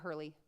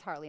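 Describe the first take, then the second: First: The first vowel sounds like 'ur' in hurt. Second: The first vowel sounds like 'ar' in car. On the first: The speaker calls it wrong. "not Hurley" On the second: The speaker calls it right. "It's Harley"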